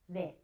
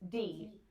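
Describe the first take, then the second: First: The d sound is soft and weak. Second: The d sound is hard and strong.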